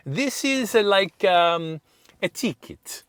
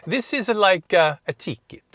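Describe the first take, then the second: First: High, halting Italian clerk; Italian accent. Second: Higher and louder Italian clerk, halting; Italian accent. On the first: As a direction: draw out the hesitation like a clerk searching for words. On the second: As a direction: replay the clerk's broken English with relish. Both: Retold or imitated. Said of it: "it sounded better when she says".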